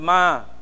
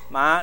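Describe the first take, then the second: First: The syllable is said with a high level tone. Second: The syllable is said with a dipping tone. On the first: It means mother. The speaker calls it right. "这个中文这个他说这个妈" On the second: It means horse. The speaker calls it wrong. "如果你发音不好啊，把它读成马啊"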